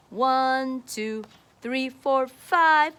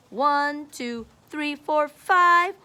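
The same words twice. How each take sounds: The two takes are said the same way.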